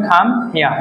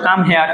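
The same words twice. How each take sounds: First: "খাম হিয়ার" with the final R silent; R-less British pronunciation. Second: Said in the usual way. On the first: Shown as a demonstration. Teacher models British come here, "হিয়ার" without R. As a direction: end "হিয়ার" on an open aa, no R. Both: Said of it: "সুতরাং উচ্চারণ হবে না".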